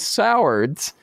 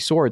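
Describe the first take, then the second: First: The surname is said with two syllables. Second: The surname is said with one syllable. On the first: The speaker calls it wrong. "that's what I always thought" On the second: The speaker calls it right. "it's actually Swords"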